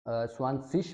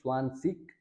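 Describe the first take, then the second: First: The word ends with a soft sh-like sound. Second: The word ends with a hard k sound. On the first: This is the common German way of saying it. "German के हिसाब से स्वानसिश बोलेंगे तो वो भी ठीक है" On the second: This is the Austrian way of saying it. "स्वानसिक अगर बोलेंगे वो भी ठीक है ऑस्ट्रिया के हिसाब से"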